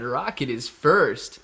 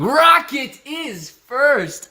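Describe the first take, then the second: First: Said in the usual way. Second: High, loud and very slow announcement; slow, hyped-up call of who came first; drawn-out hype. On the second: Acted. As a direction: stretch it out like a ring announcer. First take drawn out, louder.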